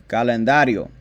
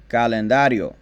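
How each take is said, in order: No difference in how they are said.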